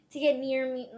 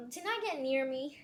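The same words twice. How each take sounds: First: Said in the usual way. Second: "not" stressed as a self-correction. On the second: Real, not acted. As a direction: correct yourself, putting the weight on "not". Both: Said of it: "I keep messing".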